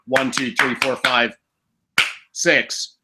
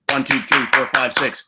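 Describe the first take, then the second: First: The numbers are counted slowly with gaps. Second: The numbers are counted quickly in a burst. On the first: The shots are fired too slowly. The speaker calls it wrong. "it shouldn't sound like" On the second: The shots are fired in rapid succession. The speaker calls it right. "It should be"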